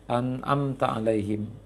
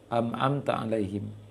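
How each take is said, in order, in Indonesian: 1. Bunyi sengau pertama adalah n. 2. Bunyi sengau pertama adalah m.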